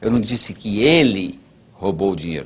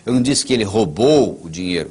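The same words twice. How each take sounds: First: The stress is on "ele". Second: The stress is on "roubou".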